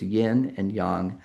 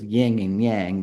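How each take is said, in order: First: It is said with Chinese-like vowels. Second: It is said with common anglicized vowels. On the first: The speaker calls it right. "It's yin and yang" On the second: The speaker calls it wrong. "we people often refer to this as yin and yang, but that's not how you pronounce it"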